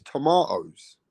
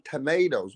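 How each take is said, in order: First: "tomatoes" as tuh-MAH-toes, drawn out slowly; slow British "tomatoes"; British pronunciation. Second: "tomatoes" as tuh-MAY-toes; mock-American "tomatoes"; American pronunciation. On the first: Shown as a demonstration. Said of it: "It's tomatoes". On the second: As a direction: mimic American "tomatoes" with a long ay. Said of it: "What the fuck is that?".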